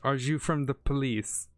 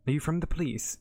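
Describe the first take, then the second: First: It is said attempting a Russian accent. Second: It is said in the speaker's ordinary accent.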